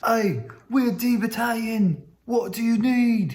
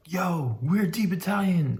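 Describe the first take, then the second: First: "we're D Battalion" in a high, slow mock British accent; second take, British soldiers greeting the runner in mock British accent. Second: Said in the usual way. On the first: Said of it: "but in their British accents". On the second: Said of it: "they're like".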